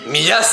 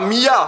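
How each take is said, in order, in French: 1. Le S final se prononce. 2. Le S final est muet. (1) "Sans les S, c'est pourri" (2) "c'est pas Mia"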